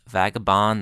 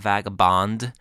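First: The name ends without a final D sound. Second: The name ends with a final D sound. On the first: The speaker calls it right. "Just don't put a D at the end. It's Vagabond" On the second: The speaker calls it wrong. "not Vagabond"

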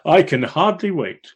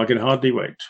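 First: It is said in a sincere tone. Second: It is said in a sarcastic tone.

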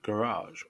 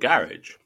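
First: It is said with an American pronunciation. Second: It is said with a British pronunciation.

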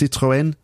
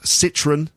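First: The name is pronounced with French sounds. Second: The name is pronounced with English sounds. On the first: "In French, it's Citroën" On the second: "we talk about Citroën"

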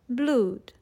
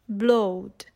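First: The vowel is a long oo sound. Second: The vowel rhymes with load. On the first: This is the pronunciation from Shakespeare's time. "they all sounded like we say the word food today" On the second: This is the 14th and 15th century pronunciation. "they would rhyme with the word load"

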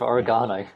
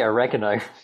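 First: It is said with a British pronunciation. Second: It is said with an American pronunciation. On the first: The speaker calls it right. "instead of oregano" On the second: The speaker calls it wrong. "They say oregano"

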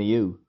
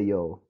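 First: The word rhymes with too. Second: The word rhymes with go. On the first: This is another way people say it. "And a you" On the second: This is how it is said where the speaker is from. "So I say yo"

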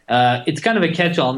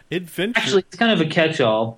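First: It is said in the speaker's ordinary casual voice. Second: It is said in a smooth, put-on radio-announcer voice.

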